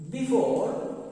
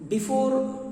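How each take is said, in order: No difference in how they are said.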